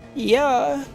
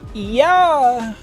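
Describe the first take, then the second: First: It is said at a normal, lower pitch. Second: It is said at a higher pitch.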